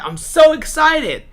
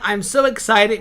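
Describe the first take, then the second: First: It is said with a high pitch. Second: It is said with a flat pitch. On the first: The speaker calls it right. "with a higher pitch" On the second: The speaker calls it wrong. "with a flat pitch"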